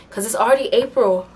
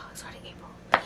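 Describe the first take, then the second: First: Said in the usual way. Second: A sigh, then whisper the words; whispered to herself after a sigh. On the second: Real, not acted. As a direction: breathe it out, deflated and hushed. Repeats it under a sigh.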